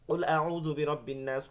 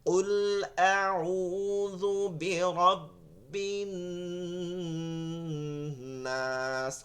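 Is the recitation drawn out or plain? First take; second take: plain; drawn out. First: It is recited plainly, without elongation or nasal holds. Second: It is recited slowly, with drawn-out vowels and nasal holds. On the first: This way helps memorizing. The speaker calls it right. "ওই সময় পড়বেন এরকম" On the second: This way does not help memorizing. The speaker calls it wrong. "ওইটা মুখস্থ হবে না"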